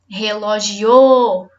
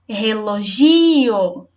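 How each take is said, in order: First: The stress is on the fourth syllable. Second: The stress is on the third syllable. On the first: "Se for o o" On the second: "Se for o gi"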